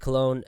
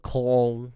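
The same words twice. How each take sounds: First: The name is said with English pronunciation. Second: The name is said with German pronunciation.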